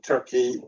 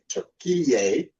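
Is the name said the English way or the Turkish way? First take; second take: English; Turkish. First: It is said the usual English way. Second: It is said the Turkish way, like Türkiye.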